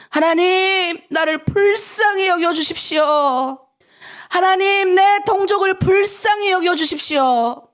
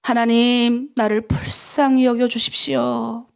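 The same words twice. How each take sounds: First: Slow, building from plea to cry, higher and louder; second, climbing take of the prayer; rising plea. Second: Pleading prayer. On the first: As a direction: pray it with growing urgency. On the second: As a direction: lead the plea gently, 불쌍히 drawn out. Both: Shown as a demonstration. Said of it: "우리 한번 따라해볼까요?".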